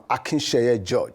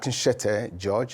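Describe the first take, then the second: First: The last syllable of the name starts with y. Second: The last syllable of the name starts with t. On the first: The speaker calls it right. "I'm Akinsheye George" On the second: The speaker calls it wrong. "let me correct the mistake in the pronunciation of my name. I'm not"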